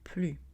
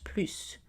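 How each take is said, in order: First: The final S sound is silent. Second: The final S sound is pronounced. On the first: It means not anymore. "Quand on dit not anymore, on prononce plus" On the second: It means more. "quand on dit more, on prononce plus"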